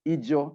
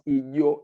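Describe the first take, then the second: First: The J in the name sounds hard. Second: The J in the name sounds soft. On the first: The speaker calls it wrong. "I pronounce it Ijo as it is written" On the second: The speaker calls it right. "it is supposed to be pronounced Ijo. It's a soft J"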